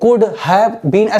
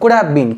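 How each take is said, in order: First: The three words are said separately. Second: The three words are run together. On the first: The speaker calls it wrong. "ऐसे नहीं बोलते" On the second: The speaker calls it right. "एक साथ बोलते हैं इसको"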